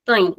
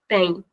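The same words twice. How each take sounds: First: Tem with its vowel closed and short; shortened vowel. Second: Said in the usual way. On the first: Shown as a demonstration. Teacher explaining the vocês conjugation, shortened tem. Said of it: "shortening the sound of the vowel". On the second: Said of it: "it's the normal sound".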